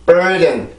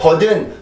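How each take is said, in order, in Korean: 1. 첫 음절은 강하고, 둘째 음절은 약하게 발음했어요. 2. 두 음절을 한국식으로 고르게 발음했어요. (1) "burden 이렇게 발음이 되어야 되는데" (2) "이게 절대 버든, 버든 이런 발음이 아니고"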